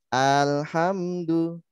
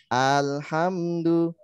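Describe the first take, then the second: No difference in how they are said.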